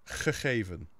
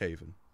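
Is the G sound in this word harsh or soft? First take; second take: harsh; soft. First: The G sounds are very harsh and guttural. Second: The G sounds are guttural but noticeably softer. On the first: The speaker sounds like someone from the far north. "if I was really far north, I would say" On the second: The speaker sounds like someone from the center of the country. "still quite guttural, but it's not as guttural as as it is up north"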